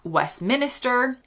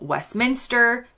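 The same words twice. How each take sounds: First: It is said the way foreigners often say it. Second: It is said the local British way. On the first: The speaker calls it wrong. "not Westminster" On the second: The speaker calls it right. "including Westminster"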